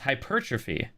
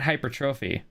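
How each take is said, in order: First: The first syllable sounds like 'high'. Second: The first syllable does not sound like 'high'. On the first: The speaker calls it right. "Nope, it's high. It's hypertrophy" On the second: The speaker calls it wrong. "not hypertrophy"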